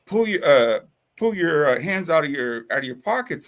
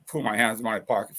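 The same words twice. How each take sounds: First: Mildly raised, higher retold order; cop's command. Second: Quick retort at usual pitch; defiant echo. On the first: Officer with hand on gun orders him, commanding. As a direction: imitate an officer ordering someone, a bit louder. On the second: Retold or imitated. Throwing the cop's order back at him, defiant. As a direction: toss the order back fast, mildly scornful.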